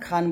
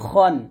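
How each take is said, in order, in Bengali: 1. স্বরটি একটি খোলা, হালকা 'a' ধ্বনি। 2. স্বরটি একটি ভারী, গোলাকার 'o' ধ্বনি। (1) "এখন খান বলবেন না" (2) "বলতে হবে খন"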